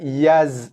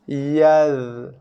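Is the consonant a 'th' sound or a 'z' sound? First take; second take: z; th. First: The consonant is a buzzing z sound. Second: The consonant is a soft voiced th sound. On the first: The speaker calls it wrong. "Bukan yaz" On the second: The speaker calls it right. "tapi yaz. Tengok lidah saya naik eh"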